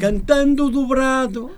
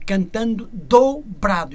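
First: "dobrado" as one joined word, slow and loud; wrong run-together dobrado. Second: "do" and "brado" as two separate, stretched words; slow, louder "do", then a distinct "brado"; exaggerated word split. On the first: Singer mimicking the misread lyric, "dobrado" as one word. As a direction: run "cantando dobrado" together, drawn out and higher. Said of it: "Não é dobrado". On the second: Singer teaching the lyric to the host, exaggerated split "do brado". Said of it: "Estou a exagerar". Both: Shown as a demonstration.

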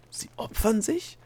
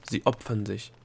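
First: Slow, high, rising question; incredulous echo. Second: Said in the usual way. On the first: A narrator's reading. Delia echoes the gnome's answer, incredulous. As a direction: repeat it back in shocked disbelief.

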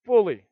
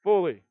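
First: Fully said slow and louder; fully held and weighted; stress on fully. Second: Fully repeated, louder and falling; fully pressed down; stress on fully. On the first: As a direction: lean hard on fully. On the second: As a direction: hammer the word fully again. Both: Shown as a demonstration. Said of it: "I want you to underline that word".

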